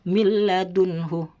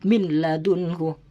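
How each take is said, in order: First: The n merges into a doubled l sound. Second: The n is pronounced separately before the l. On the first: The speaker calls it right. "langsung masuk" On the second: The speaker calls it wrong. "tidak boleh dibaca"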